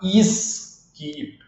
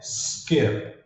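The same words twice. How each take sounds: First: A vowel sound comes before the s. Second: The word starts directly on the s. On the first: The speaker calls it wrong. "o brasileiro tem a tendência de colocar um i aqui no começo" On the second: The speaker calls it right. "Você começa direto no S"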